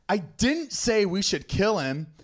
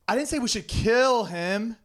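First: The stress is on the word 'didn't'. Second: The stress is on the word 'kill'.

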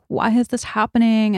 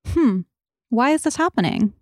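First: It sounds fearful and resisting. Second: It sounds open and curious.

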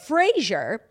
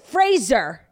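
First: The middle consonant is a soft 'zh' sound. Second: The middle consonant is a plain 'z' sound. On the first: The speaker calls it wrong. "similar to the 90s sitcom Frasier" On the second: The speaker calls it right. "his name actually rhymes with razor"

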